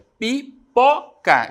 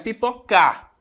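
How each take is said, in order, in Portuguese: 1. A tônica está na penúltima sílaba. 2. A tônica está na última sílaba. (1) "é a penúltima sílaba da palavra" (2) "Não é a última, não é a última"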